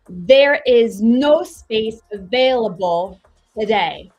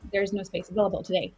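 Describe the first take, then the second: First: Every sound is crisply and separately over-articulated. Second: The words are relaxed and run smoothly together. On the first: "I hyper articulate everything. And I sound crazy" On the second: "you relax into it and it feels better"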